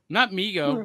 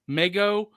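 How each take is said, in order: First: The first vowel sounds like the one in 'see'. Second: The first vowel sounds like the one in 'bed'. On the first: It is the official modern pronunciation. The speaker calls it wrong. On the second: It is said like Lego. The speaker calls it right. "Like Mega"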